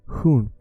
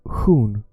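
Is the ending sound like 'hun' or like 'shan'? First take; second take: hun; hun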